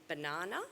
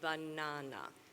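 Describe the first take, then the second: First: One syllable is stressed more than the others. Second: All syllables get the same equal stress.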